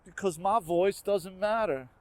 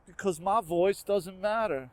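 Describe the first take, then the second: No difference in how they are said.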